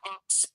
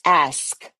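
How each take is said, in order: First: The word is said like 'aks', ending in ks. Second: The word is said as 'ask', ending in sk. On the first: The speaker calls it wrong. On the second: The speaker calls it right.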